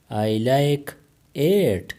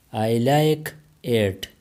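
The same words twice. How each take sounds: First: Said in the usual way. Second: Stretched-out classroom model; slow it right down for the learners; very slow, careful. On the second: Shown as a demonstration. Teacher modelling English for Pashto learners, very slow. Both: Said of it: "teacher repeats the phrase twice".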